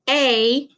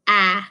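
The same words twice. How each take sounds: First: The vowel sounds like the letter's name. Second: The vowel is a short, lax sound. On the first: "A makes the long vowel sound where it says its name" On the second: "instead of"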